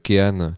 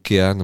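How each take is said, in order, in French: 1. Le nom se prononce à l'italienne. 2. Le nom se prononce d'une façon non italienne.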